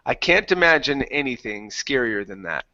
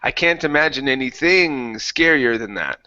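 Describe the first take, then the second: First: The word anything carries no strong emphasis. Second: The word anything carries strong emphasis. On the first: The speaker calls it right. "copy how I say this" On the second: The speaker calls it wrong. "you're accentuating here"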